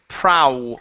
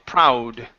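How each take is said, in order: Both takes have the same delivery.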